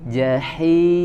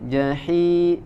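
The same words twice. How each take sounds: First: The sound comes out of the mouth. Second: The sound goes through the nose. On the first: The speaker calls it right. "Jaga suaranya eh, keluar dari mulut" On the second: The speaker calls it wrong. "Jangan ... tidak masuk ke hidung"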